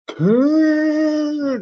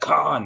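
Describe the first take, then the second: First: It is shouted in a feeble, nerdy voice. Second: It is shouted in a tough, badass voice.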